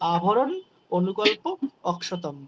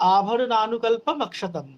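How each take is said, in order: First: The first words are said as separate words. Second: The first words are joined into one word.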